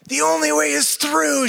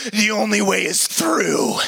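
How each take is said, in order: First: Only pushed high and slow; stress on only. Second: Slow, solemn coach line; a hint of grim instructor. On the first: Retold or imitated. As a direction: lean hard on only, slowly. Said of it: "she said". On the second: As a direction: say it slowly like a grim verdict. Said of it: "She says".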